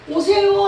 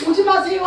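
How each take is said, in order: First: Bright, louder, courteous please-come; polite invitation. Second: Louder, higher, courteous don't-come; polite refusal. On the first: Pastor mimicking a courteous invitation, raised and polite. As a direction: invite him warmly and politely. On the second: Pastor imitating a polite brush-off, raised and courteous. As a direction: turn him away with mock politeness. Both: Retold or imitated. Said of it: "그냥 아주 인격적이라고".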